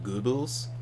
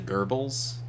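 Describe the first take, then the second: First: The name is said with a German accent. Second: The name is said with an American accent. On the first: The speaker calls it right. "instead of Goebbels" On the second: The speaker calls it wrong. "Americans will say Goebbels"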